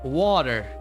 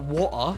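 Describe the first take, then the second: First: The middle consonant sounds like a soft D. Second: The middle consonant is a clear T sound. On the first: "you you you pronounce the D"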